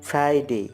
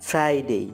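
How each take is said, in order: No difference in how they are said.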